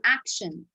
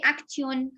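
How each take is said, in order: First: Action with sh, ak-shun; correct pronunciation. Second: Action with a hard t, act-yon; wrong pronunciation. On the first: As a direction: say action as ak-shən. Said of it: "No, you will say action". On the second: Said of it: "You will not say action". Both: Shown as a demonstration.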